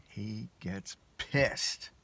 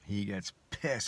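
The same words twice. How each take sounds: First: "He gets pissed" stretched very slowly; drawn-out emphasis. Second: "He gets pissed" repeated, a little slow; repeated emphasis. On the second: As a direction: repeat "He gets pissed" slower than normal. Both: Shown as a demonstration.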